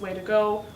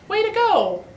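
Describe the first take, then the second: First: It is said in a flat, neutral tone. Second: It is said with a sincere, pleased tone.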